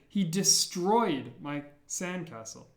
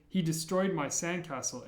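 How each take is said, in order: First: "destroyed" drawn out slowly, punched on STROY; stress on DESTROYED. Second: Said in the usual way. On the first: Shown as a demonstration. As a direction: hit the second syllable of "destroyed" hard and stretch it. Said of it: "really want to emphasize that he destroyed it". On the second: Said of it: "if you wanted to say".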